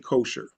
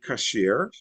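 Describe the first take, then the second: First: The word has the Americanized vowel sounds. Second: The word has the Hebrew vowel sounds. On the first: "In Hebrew, you don't say kosher. Okay, kosher is ... an Americanized a way" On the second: "so in Hebrew, you say kasher"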